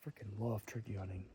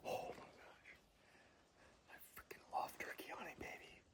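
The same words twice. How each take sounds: First: Said in the usual way. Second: Fast, hushed whisper of pure excitement; thrilled whisper. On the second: Real, not acted. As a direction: whisper it fast, buzzing with joy. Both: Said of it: "every hair on my body is standing up".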